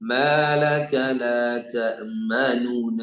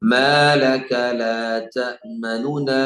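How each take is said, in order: First: The vowel after the first nun is fully held. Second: The vowel after the first nun is cut short. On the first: The speaker calls it wrong. "അങ്ങനെ ഓതുകയാണെങ്കിൽ അത് തെറ്റാണ്" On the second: The speaker calls it right. "അതിന്റെ മൂന്നിലൊരു സമയം കൊടുക്കുള്ളൂ"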